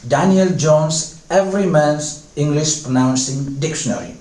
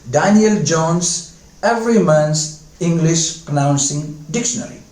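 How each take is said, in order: Both takes have the same delivery.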